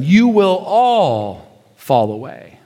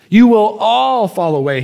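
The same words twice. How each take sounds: First: Slow solemn quote. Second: Said in the usual way. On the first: Acted. First quote of Jesus.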